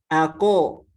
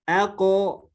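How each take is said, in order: First: The q sound carries a full vowel. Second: The q sound carries a full vowel.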